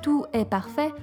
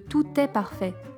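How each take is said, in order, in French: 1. Les mots sont liés comme c'est courant en Belgique. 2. Les mots sont liés de la manière standard habituelle. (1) "En Belgique, notamment, on a tendance à dire" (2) "au lieu de"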